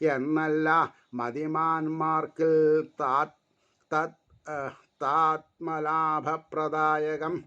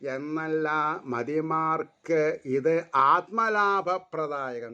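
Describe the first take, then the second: First: The words are read haltingly and indistinctly. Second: The words are read smoothly and distinctly. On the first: The reader does not know the meaning. The speaker calls it wrong. "ആദ്യം വായിച്ചത് അർത്ഥം അറിയാണ്ട് വായിച്ചു ഞാൻ" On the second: The reader understands the meaning. The speaker calls it right. "പിന്നെ അർത്ഥം അറിഞ്ഞപ്പോൾ ... സ്ഫുടത, വാക്ക് സ്ഫുടായി"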